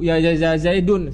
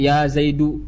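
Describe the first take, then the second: First: The name ends with a final n sound. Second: The name ends in a vowel without n. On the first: The speaker calls it wrong. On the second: The speaker calls it right. "dengan dihilangkan tanwinnya"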